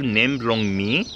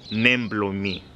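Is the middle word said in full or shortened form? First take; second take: full; shortened. First: The middle word is the full form blong. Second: The middle word is shortened to blo. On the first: "Usually instead of saying blong" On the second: "you say a shortened form of that word and say blo instead"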